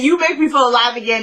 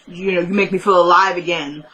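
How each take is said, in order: First: Quick mock recital of "you make me feel alive again"; mocking a cliché. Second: Said in the usual way. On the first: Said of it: "is just such a cliche line".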